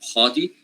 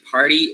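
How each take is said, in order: First: The R is dropped and the vowel lengthened. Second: The R after the vowel is sounded.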